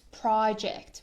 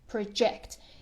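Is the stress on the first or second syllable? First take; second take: first; second. First: The stress is on the first syllable. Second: The stress is on the second syllable. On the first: It is a noun. "When it's a noun, it's project" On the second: It is a verb. "here it's a verb and we pronounce it project"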